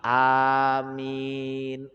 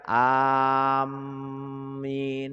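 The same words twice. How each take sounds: First: It is light, with both vowels drawn out. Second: It is said without the drawn-out vowels. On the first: The speaker calls it right. "enteng, alifnya dipanjangin, mimnya ketemu nun juga panjang" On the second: The speaker calls it wrong.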